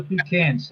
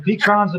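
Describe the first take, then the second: First: "pecans" said pee-KANZ, A as in cat; "pecans" ending just like cans; pee-CAN pronunciation. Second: "pecans" said pee-KAHNZ, A as in father; "pecans" ending in KAHNZ; pee-KAHN pronunciation. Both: Shown as a demonstration. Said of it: "I don't care what you call it".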